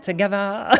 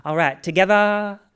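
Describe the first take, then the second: First: Laughing repeat. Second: Put-on Southern accent. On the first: Retold or imitated. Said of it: "Everyone says it". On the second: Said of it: "she has that Southern accent".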